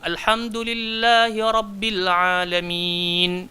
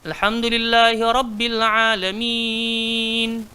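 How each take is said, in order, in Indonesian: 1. Vokal panjang terakhir dibaca dua ketukan. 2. Vokal panjang terakhir dibaca empat ketukan. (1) "Boleh dua" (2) "dia boleh empat"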